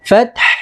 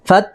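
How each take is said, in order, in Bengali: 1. শব্দটি শ্বাসযুক্ত 'হ' ধ্বনি দিয়ে শেষ হয়। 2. শব্দটি কোনো শ্বাসযুক্ত 'হ' ধ্বনি ছাড়া শেষ হয়। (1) "শেষে একটু হায়ের উচ্চারণটা বের করে দিতে হবে" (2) "ফাত বলে"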